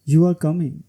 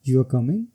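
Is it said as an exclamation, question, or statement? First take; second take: statement; question. First: It has a falling statement tune. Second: It has a questioning tune. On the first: It states a fact. "सबसे पहले falling tone. ... ये statement है।" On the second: It asks whether someone is coming. "ये question है।"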